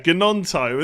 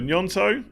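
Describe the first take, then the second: First: The name starts with a hard G sound. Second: The name starts with an NY sound. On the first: The speaker calls it wrong. "that's such an English person way of saying it" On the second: The speaker calls it right. "So Nyonto"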